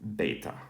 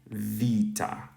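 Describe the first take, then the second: First: The word begins with a b sound. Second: The word begins with a v sound. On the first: This is the ancient New Testament reading. "if we were to read this this beta right here in New Testament Greek" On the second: This is the modern Greek reading. "if we read it in modern Greek, it would be vita. So it's more of a V sound"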